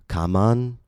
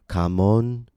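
First: The second vowel is a full 'a' sound. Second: The second vowel is a full 'o' sound. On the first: "The word is not pronounced kaman" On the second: "or kamon"

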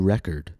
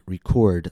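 First: The stress is on the first syllable. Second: The stress is on the second syllable. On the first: It is a noun: an album or disc. "When the word is used as a noun, the stress will fall on the first syllable" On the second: It is a verb: to capture sound. "When the word is used as a verb, the stress will fall on the second syllable"

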